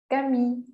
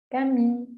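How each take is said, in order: No difference in how they are said.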